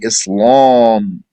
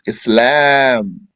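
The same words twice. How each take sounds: First: The L sound is heavy and full. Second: The L sound is light and thin. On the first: The speaker calls it wrong. "You're not supposed to say Islam" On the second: The speaker calls it right. "It's Islam. La, lam, alif"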